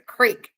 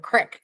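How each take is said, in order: First: The word has a long vowel, like 'creek'. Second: The word has a short vowel, like 'crick'. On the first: This is how people say it in Missouri. "It's a creek in Missouri" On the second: This is how people say it in Arkansas. "They call it a crick in Arkansas"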